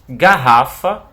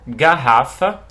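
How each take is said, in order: No difference in how they are said.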